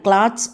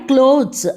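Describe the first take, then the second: First: The vowel is an open a sound. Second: The vowel is a long o sound. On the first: The speaker calls it wrong. "క్లాత్స్ అనకూడదు" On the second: The speaker calls it right. "క్లోత్స్ అనాలి"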